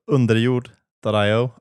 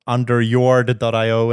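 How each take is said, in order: First: The name is said without an American pronunciation. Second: The name is said with an American pronunciation.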